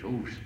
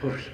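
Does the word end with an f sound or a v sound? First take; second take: v sound; f sound. First: The word ends with a v sound. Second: The word ends with an f sound. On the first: The speaker calls it right. "I think the proper pronunciation is hooves" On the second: The speaker calls it wrong. "We often think of it as hoofs"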